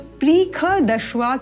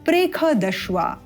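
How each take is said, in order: First: The first vowel is a long 'ee' sound. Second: The first vowel is a short 'e' sound. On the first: The speaker calls it wrong. "प्रीख दश्वा के स्थान पर" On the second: The speaker calls it right. "केवल अल्प ध्वनि प्रेख दश्वा"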